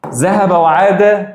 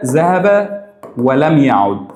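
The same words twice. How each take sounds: First: ذهب وعاد said slowly, stress on وعاد; slow drilled phrase. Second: ذهب ولم يعد said slowly, ذهب stressed, falling; slow drilled phrase. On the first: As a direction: drag out ذهب وعاد, lean on وعاد. (نطق بطيء مع شد على وعاد) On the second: (نطق بطيء مع شد على ذهب) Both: Shown as a demonstration. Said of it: "كلمتين خفاف".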